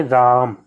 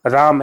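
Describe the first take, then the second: First: राम with the आ held three times as long; drawn-out pluta vowel. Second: Said in the usual way. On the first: Shown as a demonstration. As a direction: stretch the आ in राम slowly, like a chant. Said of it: "time देकर के पढ़ेंगे". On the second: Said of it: "राम ऐसे नहीं पढ़ेंगे".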